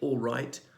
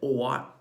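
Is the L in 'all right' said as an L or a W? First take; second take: L; W. First: The double L is said as a clear L. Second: The double L is said like a W.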